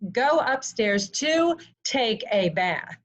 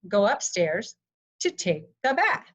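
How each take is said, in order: First: The phrase is said with flat, plain intonation. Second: The phrase is said with marked, varied intonation. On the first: The speaker calls it wrong. "I don't usually say" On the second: The speaker calls it right. "Instead, I use the inflection for"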